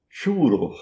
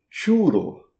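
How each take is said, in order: First: It is said with Spanish pronunciation. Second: It is said with Spanish pronunciation.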